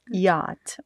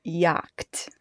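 First: Yacht with the ch left silent; corrected pronunciation. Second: Yacht with a k sounded before the t, low; mispronounced Yacht. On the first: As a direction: say Yacht as "yaht". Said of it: "How, how do you say?". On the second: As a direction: say Yacht as "yakt". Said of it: "you guys say, "Mom, that's definitely wrong". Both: Shown as a demonstration.

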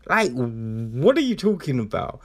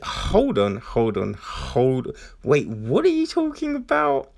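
First: Said in the usual way. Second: Bewildered. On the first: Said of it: "repeats own quote". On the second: Retold or imitated. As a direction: caught off guard by the twist. Imagined reaction to plot twist.

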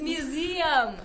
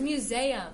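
First: "museum" as myoo-ZEE-um, drawn out slowly; correct museum. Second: "museum" as myoo-ZAY-um; sister's mispronunciation. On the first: Shown as a demonstration. Host correcting friends, slow myoo-ZEE-um for museum. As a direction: stretch the EE in "museum". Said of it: "It's museum". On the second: Retold or imitated. Host imitating her sister in a debate, myoo-ZAY-um for museum. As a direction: put an AY in the middle of "museum". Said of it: "My sister says".

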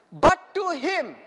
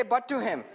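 First: Slow, loud, deliberate verse reading. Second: Said in the usual way. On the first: Shown as a demonstration. Preacher leads congregation through the verse, slow and emphatic. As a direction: read it out word by word, strongly. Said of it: "I want you to read it very slowly".

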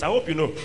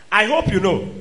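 First: Said in the usual way. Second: "I hope you know" pushed out louder; louder insistent repeat. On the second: Real, not acted. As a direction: press the point harder.

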